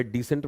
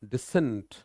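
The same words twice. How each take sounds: First: decent with a long "dee" stressed at the front; DEE-sent, front-stressed decent; stress on first syllable. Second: decent with short "di" and stressed "SENT"; di-SENT, weight after the first syllable; stress in the middle. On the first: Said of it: "decent में पहला part". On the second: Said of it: "disagreement वाले decent में बीच में जोर". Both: Shown as a demonstration.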